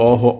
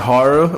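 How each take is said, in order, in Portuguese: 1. É pronunciado com um som do português brasileiro. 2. É pronunciado com um som inglês. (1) "a gente falou horror" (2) "eu sei que é horror"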